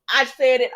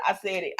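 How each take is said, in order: First: Said in the usual way. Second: Repeated far softer, almost to herself; much softer. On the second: Shown as a demonstration. The vlogger murmuring her claim again to herself. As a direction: drop it to a soft aside.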